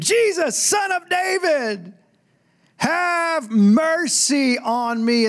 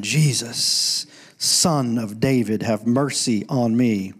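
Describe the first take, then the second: First: Very high, drawn-out scream for mercy. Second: Low, slow retelling of a yell, not shouted; retold yelling. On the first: Acted. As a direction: scream it slowly, pleading to be heard. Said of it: "He screamed". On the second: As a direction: recite the repeated cry slowly, in a lowered voice. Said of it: "He just kept yelling".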